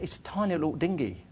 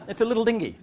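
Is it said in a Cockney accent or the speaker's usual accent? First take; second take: Cockney; usual. First: It is said in a Cockney accent. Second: It is said in the speaker's usual accent.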